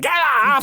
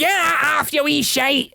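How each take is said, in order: First: Put-on high, loud strong Ouija accent mum. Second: Put-on shouted Ouija-accent mum, pitched up. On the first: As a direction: bark it in a thick Ouija accent. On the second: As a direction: yell it at the kid in a Ouija accent. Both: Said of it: "In her strongest Ouija accent".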